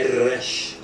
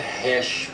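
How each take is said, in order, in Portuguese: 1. Começa com um som forte e prolongado, como um R. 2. Começa com um som suave e aspirado, parecido com H. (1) "com o R bem puxado" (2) "lembre-se que não é hash"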